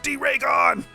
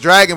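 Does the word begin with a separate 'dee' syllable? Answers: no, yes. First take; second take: yes; no. First: It starts with a separate 'dee' then 'raygon'. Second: It is said as the ordinary word dragon. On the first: The speaker calls it right. "It's D-Raygon" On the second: The speaker calls it wrong. "I've been saying it wrong"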